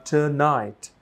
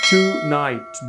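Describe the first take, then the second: First: Tonight slowly as "tuh-NIGHT"; reduced first vowel. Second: Tonight slowly as "too-night"; full first vowel. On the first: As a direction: weaken the first syllable of tonight, stress NIGHT. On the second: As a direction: hold a long "oo" in tonight. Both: Shown as a demonstration. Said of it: "এই আটাও থাকছে না".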